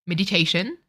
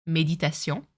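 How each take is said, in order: First: Meditation said the English way, MED-i-TAY-shun; English pronunciation. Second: Méditation in French, may-dee-ta-SYON with a nasal ending; French pronunciation. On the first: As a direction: give meditation its plain English sounds. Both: Shown as a demonstration. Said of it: "we say it differently".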